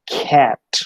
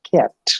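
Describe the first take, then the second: First: The first consonant has a puff of air. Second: The first consonant has no puff of air. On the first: "phonetically it is pronounced as cat ... h is added to that" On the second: "Phonemically, it is pronounced as cat"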